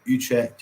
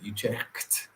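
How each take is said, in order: First: It is said without a harsh throat sound. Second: It is said with a harsh throat sound.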